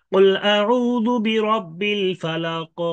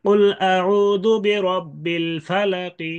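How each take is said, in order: First: Slow, higher chant ending "ফালাক" without a vowel; sakin stop recitation. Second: Slow, higher chant ending "ফালাকি" with a light i; rum stop recitation. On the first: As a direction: chant it, closing "ফালাক" on a bouncing q. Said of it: "ওয়াকফ করলেন সাকিন করে". (সাকিন করে ধীর তিলাওয়াত, শেষে "ফালাক") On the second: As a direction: recite slowly, sounding the final kasra in "ফালাকি". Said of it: "অথবা রুম করে ওয়াকফ". (রুম করে ধীর তিলাওয়াত, "ফালাকি"-তে হালকা জের) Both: Shown as a demonstration.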